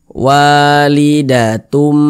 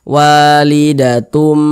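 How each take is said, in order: No difference in how they are said.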